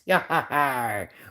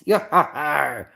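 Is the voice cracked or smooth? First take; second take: smooth; cracked. First: The voice is a smooth, regular pirate voice. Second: The voice sounds a little cracked and strained. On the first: The speaker calls it right. "the regular voice I just did was like the regular pirate voice" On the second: The speaker calls it wrong. "the other voice, because by the way, was kind of a little cracked"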